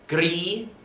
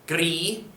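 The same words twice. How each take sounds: No difference in how they are said.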